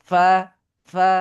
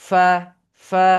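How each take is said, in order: The two takes are said the same way.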